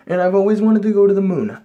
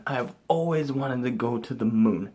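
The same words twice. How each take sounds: First: Loud and high, yearning; excited longing. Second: Said in the usual way. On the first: Real, not acted. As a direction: belt out the dream.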